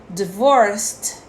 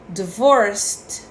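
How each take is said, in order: Both takes have the same delivery.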